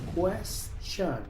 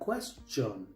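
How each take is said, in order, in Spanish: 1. La consonante del medio suena como sh. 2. La consonante del medio es un sonido t sencillo. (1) "la T se pronuncia como S H" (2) "Muchos pronuncian esta palabra question"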